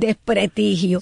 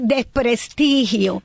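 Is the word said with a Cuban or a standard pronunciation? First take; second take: Cuban; standard. First: The word has a Cuban pronunciation. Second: The word has a standard pronunciation. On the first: The speaker calls it wrong. "la mayoría de los cubanos ... dicen desprestigio" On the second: The speaker calls it right. "en vez de decir desprestigio"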